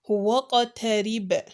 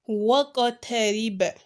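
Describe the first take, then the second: Both takes have the same delivery.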